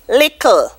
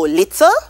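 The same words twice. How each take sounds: First: The middle consonant is a k sound. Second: The middle consonant is a t sound.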